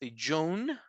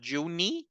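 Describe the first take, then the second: First: It ends on the consonant sound. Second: It ends with an added vowel sound. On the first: The speaker calls it right. "The sound of the E is not there" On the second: The speaker calls it wrong. "Is is not Juni"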